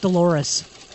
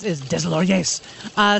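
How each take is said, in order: First: The name sounds like 'Dolores'. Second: The name sounds like 'Deslauriers'. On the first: The speaker calls it wrong. "You probably pronounce it Dolores" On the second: The speaker calls it right. "but it's Deslauriers"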